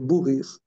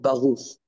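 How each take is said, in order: First: It is said in a Polish Jewish pronunciation. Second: It is said in a standard Hebrew pronunciation.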